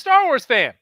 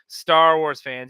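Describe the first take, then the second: First: It is said with a warm, friendly tone. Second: It is said with a scornful, disdainful tone. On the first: Being a fan is seen as something nice. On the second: The fans are seen as annoying complainers.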